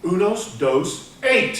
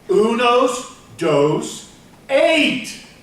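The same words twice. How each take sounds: First: It is said at a normal pace and volume. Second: It is said more slowly and more loudly.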